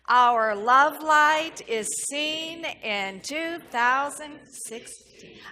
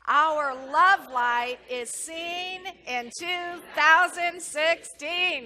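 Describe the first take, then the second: First: It is said calmly, without much energy. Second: It is said with passion and energy.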